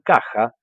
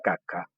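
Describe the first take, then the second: First: The middle consonant is a rasping Spanish j sound. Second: The middle consonant is a hard k sound. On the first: This is the standard Spanish pronunciation. "en vez de decir caja" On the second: An Italian speaker who cannot pronounce the Spanish j says it this way. "todo italiano va a tender a reemplazar la J por una C"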